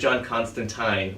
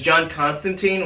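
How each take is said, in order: First: Constantine is pronounced the British comic version's way. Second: Constantine is pronounced the film version's way. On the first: This is the British comic character. "which is the British guy" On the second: This is the film character. "which is Keanu"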